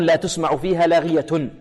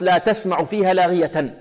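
First: تسمع as "tusma'u", لاغية as "laghiyatun"; Qalun reading. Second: تسمع as "tasma'u", لاغية as "laghiyatan"; Hafs reading. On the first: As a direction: damma on تسمع, لاغية ending in -un. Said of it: "إذن عند قالون". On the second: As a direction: fatha on تسمع, لاغية ending in -an. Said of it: "وعند حفص". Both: Shown as a demonstration.

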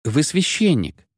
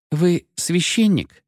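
First: Slow, falling, certain statement; the young woman now declaring he is a priest; firm statement. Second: Slow, high questioning lilt; a young woman timidly asking if he's a priest; hesitant question. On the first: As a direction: state it as a settled fact. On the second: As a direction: ask it, unsure, drawing it out. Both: A narrator's reading. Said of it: "повторила свою фразу теперь уже утвердительно".

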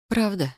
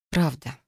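First: Higher-pitched, small question; tentative, pitch raised; doubtful question. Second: Understated, final single word. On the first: Wary question before trusting him. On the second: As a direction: confirm it without any question. Confirms her confession as true. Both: A narrator's reading.

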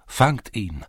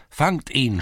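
First: Raised call to catch him; shouting lads. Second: Higher, louder repeated cry; louder shout. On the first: Lads in the lane shouting to catch the thief. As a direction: call out after the runaway. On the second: Lads in the lane shouting again, louder. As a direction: yell it again, harder. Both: A narrator's reading. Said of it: "schrien einige Burschen".

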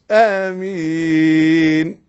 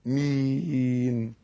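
First: آمين drawn out very long and rising; overlong amen. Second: آمين with the first a held two beats, slow; two-beat amen. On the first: Teacher mocking an overdrawn amen. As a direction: stretch آمين far too long. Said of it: "مش". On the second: Teacher showing the correct length of amen. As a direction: hold the a of آمين just two counts. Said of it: "آ حركتين". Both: Shown as a demonstration.

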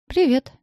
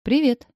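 First: Nervous high squeak of a greeting; squeaky falsetto. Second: Said in the usual way. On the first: Acted. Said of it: "срывается в визгливый фальцет".

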